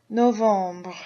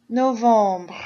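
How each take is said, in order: Both takes have the same delivery.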